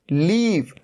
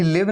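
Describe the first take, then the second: First: लीव with a long ee, "leev"; correct long vowel. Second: लिव with a short i, "liv"; wrong short vowel. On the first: Teacher answering with a long-vowel "leev". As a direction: stretch the ee in लीव. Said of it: "ये क्या है?". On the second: Teacher showing what it is not, "liv". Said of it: "ये लिव नहीं है". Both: Shown as a demonstration.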